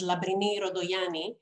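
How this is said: The name is said with a Greek pronunciation.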